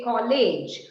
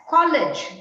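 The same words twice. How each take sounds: First: COLLEGE with a long "ay" in the second syllable, like "kol-ayj"; mispronunciation demo. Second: COLLEGE with a short, light second vowel, like "kollij"; correct pronunciation. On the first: Teacher warns students off this version, COLLEGE mispronounced as "kol-ayj". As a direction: say "college" wrongly as "kol-LAYJ". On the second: Teacher models the word for students, COLLEGE correctly ending in "-lij". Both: Shown as a demonstration. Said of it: "don't say college".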